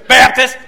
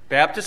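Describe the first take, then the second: First: The word is said loudly. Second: The word is said quietly.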